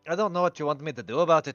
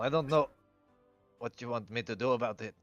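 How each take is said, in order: First: It is said in a put-on character voice. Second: It is said in the speaker's own voice.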